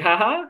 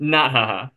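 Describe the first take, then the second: First: High, tentative questioning "Ha ha?"; nervous joke laugh. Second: Flat, firm "Not ha ha" in a lightly voiced doctor; stern doctor. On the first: Retold or imitated. Patient hoping the doctor is joking, rising "Ha ha?". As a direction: test the joke with a hopeful rising "Ha ha?". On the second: Doctor flatly refusing the patient's joke, mild stern voice. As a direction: shut the joke down, level and serious.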